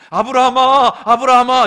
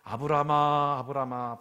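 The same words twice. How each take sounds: First: It is shouted loudly and urgently. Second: It is said calmly at normal volume.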